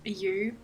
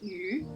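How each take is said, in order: First: The name is said like English 'you'. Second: The name is said with Chinese pronunciation. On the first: "anglicized pronunciation, it ended up sounding like you" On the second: "the Chinese word for rain, which is pronounced Yu"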